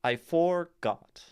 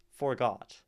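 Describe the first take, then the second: First: Slow, loud "I forgot", high punch on "for"; forced wrong stress. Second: "Forgot" landing on "got"; light "for", weight on "got" in "Forgot"; natural second-syllable stress. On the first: Teacher showing an unstressed syllable in a stressed position, wrong stress. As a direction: hit "for" hard in "forgot", drop "got". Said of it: "placing our unstressed for in a position". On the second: Teacher showing the natural iambic word, stress on second syllable. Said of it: "We land on got". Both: Shown as a demonstration.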